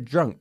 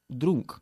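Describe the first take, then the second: First: The vowel is said with the jaw lowered. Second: The vowel is said without lowering the jaw. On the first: The speaker calls it right. "bajando la mandíbula" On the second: The speaker calls it wrong. "no drunk"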